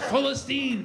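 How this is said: The name is said with Arabic pronunciation. The name feels free. The speaker calls it right.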